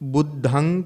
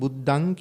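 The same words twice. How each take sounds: First: The middle consonant is said with strong aspiration. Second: The middle consonant is said without aspiration. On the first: The speaker calls it right. "බුද්ධං කියන තැනට" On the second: The speaker calls it wrong. "නිකන් බුද්ධං කියලා කිව්වොත් බලාපොරොත්තු වෙන අර්ථය සම්පූර්ණ වෙන්නේ නැහැ"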